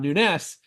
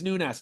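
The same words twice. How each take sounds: First: The name is said with a Spanish pronunciation. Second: The name is said with a Portuguese pronunciation. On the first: The speaker calls it wrong. "not Nunez, the Spanish style Nunez" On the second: The speaker calls it right. "Portuguese Nunez"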